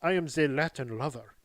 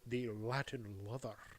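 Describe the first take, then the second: First: It is said in a Latin-sounding accent. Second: It is said in a Scottish-sounding accent.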